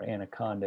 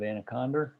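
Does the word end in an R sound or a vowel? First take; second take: vowel; R sound. First: The word ends with a plain vowel sound. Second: The word ends with an added R sound. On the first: The speaker calls it right. "if you want to pronounce it correctly" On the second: The speaker calls it wrong. "I like to put the R at the end of it"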